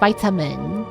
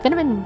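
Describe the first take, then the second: First: The word is said slowly with more effort. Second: The word is said quickly and easily. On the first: "compared to saying" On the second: "rolls off the tongue a lot faster and a lot easier"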